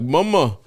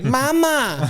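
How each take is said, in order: First: It is said in a cool, smooth way. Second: It is said in a babyish, whiny way.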